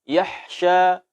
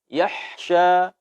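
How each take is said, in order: Both takes have the same delivery.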